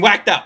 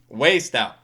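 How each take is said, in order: First: The first word sounds like 'whacked'. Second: The first word sounds like 'waste'. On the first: The speaker calls it right. "it's pronounced whacked" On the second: The speaker calls it wrong. "mispronouncing it by accident"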